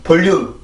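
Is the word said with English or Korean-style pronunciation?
Korean-style. It is said with Korean sounds and rhythm. The speaker calls it wrong. "볼륨 이렇게 발음을 하면 절대로 안 되고요"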